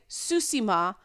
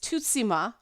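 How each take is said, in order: First: The word starts with a plain s sound. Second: The word starts with a plain t sound. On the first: "some people are saying Susima" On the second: "some people are saying it's Tutsima, which is isn't"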